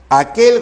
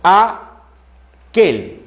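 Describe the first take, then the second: First: Said in the usual way. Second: AQUEL split as A, pause, QUEL; syllable by syllable. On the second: Shown as a demonstration. Teacher checking aquel for vowel sequences, syllable by syllable. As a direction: slowly separate AQUEL into two syllables. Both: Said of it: "no hay secuencia vocálica".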